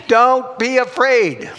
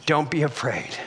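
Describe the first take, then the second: First: High, loud, slow declaration; emphatic proclamation. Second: Lowered, soothing repeat; gentle reassurance. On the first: Preacher passing on Jesus' words this morning, emphatic proclamation. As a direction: proclaim it slowly with full conviction. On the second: Preacher repeating Jesus' words to the fearful, gentle reassurance. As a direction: bring it down low and reassure. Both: Acted.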